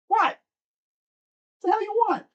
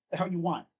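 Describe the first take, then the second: First: High voice for the cat. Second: Said in the usual way. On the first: Real, not acted. Streamer grilling his cat who wandered in, much higher. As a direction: squeak it up like chatting to a cat.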